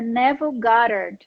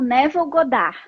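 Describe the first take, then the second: First: The name is said with an American English accent. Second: The name is said with a Brazilian Portuguese accent. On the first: This is the original pronunciation of the name. The speaker calls it right. "A pronúncia em inglês é" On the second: This is how the name is known locally. The speaker calls it wrong. "aqui no Brasil ele é conhecido como"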